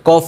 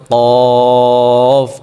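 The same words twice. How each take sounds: First: Said in the usual way. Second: কফ drawn out slowly and pushed from the throat; qaf from the throat. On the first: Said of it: "কফ বলা যাবে না". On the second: Shown as a demonstration. Teacher contrasting wrong and right কফ for students. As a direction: chant কফ long with a throat push. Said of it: "বলতে হবে কফ".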